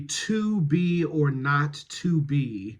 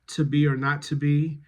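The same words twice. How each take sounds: First: The word 'to' is said in its full form. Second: The word 'to' is reduced to a weak form. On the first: The speaker calls it right. "but really to be or not to be" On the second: The speaker calls it wrong. "I don't want to travel into a weak form of to"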